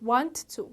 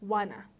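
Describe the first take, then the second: First: Both words are said in full. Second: The words are reduced into one word.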